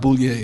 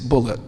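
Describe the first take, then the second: First: The name ends with a French-style sound. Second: The name sounds like the English word bullet. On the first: The speaker calls it wrong. "my name's not Boulier" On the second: The speaker calls it right. "he pronounced it Bullitt"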